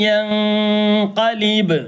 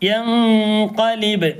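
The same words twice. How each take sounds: First: Sung, യൻഖലിബ് drawn out very slowly, falling; sung, recited word. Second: Sung, യൻഖലിബ് stretched slowly with a falling tune; sung, recited again. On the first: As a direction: chant യൻഖലിബ് with a long fall. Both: Shown as a demonstration. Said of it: "അപ്പൊ നേരത്തെ പറഞ്ഞു".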